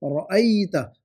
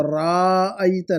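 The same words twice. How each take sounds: First: रअयता with a short ra; correct short vowel. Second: राअयता with a slow drawn raa; wrong long vowel. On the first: Teacher giving the proper word, रअयता with a short ra. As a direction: keep the ra in रअयता short and tight. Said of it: "ये रायता बन जाएगा". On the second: Teacher mocking the misspelling, राअयता with a stretched raa. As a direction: drag the raa in राअयता, as the mistake. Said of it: "राअयता नहीं". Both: Shown as a demonstration.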